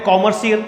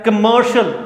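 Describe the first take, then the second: First: The first syllable has a full open 'o' vowel. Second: The first syllable has a short reduced vowel. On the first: The speaker calls it wrong. "बहुत सारे बोलते हैं कॉमर्शियल, गलत है दोस्तों" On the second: The speaker calls it right. "सही pronunciation इसका है कमर्शियल"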